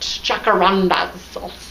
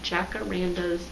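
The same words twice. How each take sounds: First: It is said in a put-on Australian accent. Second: It is said in the speaker's ordinary accent.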